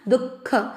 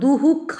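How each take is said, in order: First: No echoed sound follows 'du'. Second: An echoed 'hu' sound follows 'du'. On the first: The speaker calls it right. "दुख इस तरह से पढ़ा जाएगा" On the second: The speaker calls it wrong. "इसको दुहुख ऐसे नहीं पढ़ा जाता है"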